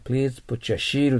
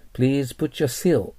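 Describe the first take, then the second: First: Seal said wrongly as Japanese "shee-ru"; katakana-style seal with sh; wrong pronunciation example. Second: Seal with an exaggerated clean s, slow model sentence; deliberate English seal, s not sh; exaggerated S pronunciation. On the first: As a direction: show the mistake, sh in place of s in seal. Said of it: "って言っちゃダメです". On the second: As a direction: overdo the "see" in seal for learners. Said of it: "極端に言ってください". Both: Shown as a demonstration.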